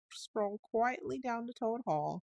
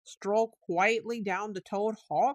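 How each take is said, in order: First: Said in the usual way. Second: Slow, higher, louder echo of 'Toad Hall'; greatly excited. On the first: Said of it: "very nicely and humbly". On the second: A narrator's reading. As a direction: cry it out in alarm. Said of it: "cried the rat, greatly excited".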